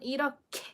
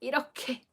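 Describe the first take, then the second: First: The middle consonant is strongly aspirated. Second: The same.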